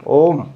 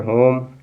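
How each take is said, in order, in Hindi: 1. यह शब्द स्वर से शुरू होता है, h ध्वनि नहीं है। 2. यह शब्द स्पष्ट h ध्वनि से शुरू होता है। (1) "ये आपका साइलेंट हो जाएगा ... ओम नहीं है यहाँ, यह साइलेंट नहीं होगा" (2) "इसको पढ़ेंगे होम"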